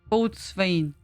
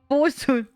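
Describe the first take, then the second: First: It is said in full, as boats-wain. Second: It is said shortened, as bosun. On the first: The speaker calls it wrong. "Don't say boatswain" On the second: The speaker calls it right. "It's just, just bosun"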